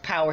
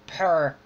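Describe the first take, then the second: First: Said in the usual way. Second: "purr" in one syllable, imitating his failed accent; mispronounced power. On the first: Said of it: "instead of, p-, like". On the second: Mocking an actor's American accent, power mispronounced as "purr". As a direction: say "purr" where power is meant. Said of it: "he said purr".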